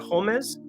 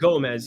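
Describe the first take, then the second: First: The name begins with a breathy H sound. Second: The name begins with a hard G sound. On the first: The speaker calls it right. "I believe, is the pronunciation when you have the O accent above it" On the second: The speaker calls it wrong. "it's not Gomez"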